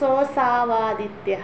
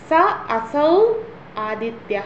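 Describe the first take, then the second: First: The three words are blended into one word. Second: The three words are said separately, unjoined.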